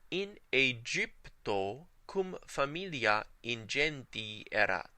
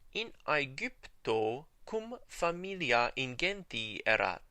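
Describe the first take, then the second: First: The g sounds are soft, like a j. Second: The g sounds are hard, like in go. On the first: This follows the church pronunciation. "Let's take a look at the ecclesiastical pronunciation" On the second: This follows the restored classical pronunciation. "here's how this would sound using the restored pronunciation"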